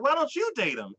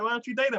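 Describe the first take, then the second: First: YOU punched higher in a retort; stress on YOU. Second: Said in the usual way. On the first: Retold or imitated. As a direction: throw it back, hitting the word "you". Question thrown back at the asker.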